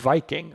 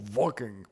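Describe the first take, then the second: First: The word begins with a V sound. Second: The word begins with a W sound. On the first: "I would assume Viking" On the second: "but it's with a W, so Viking"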